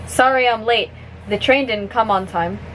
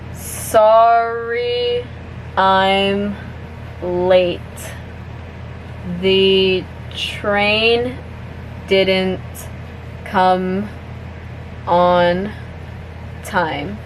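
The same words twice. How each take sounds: First: The sentence is spoken at natural, fast speed. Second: The sentence is spoken slowly. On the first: "one more time at normal speed" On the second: "I'm gonna say it slowly first"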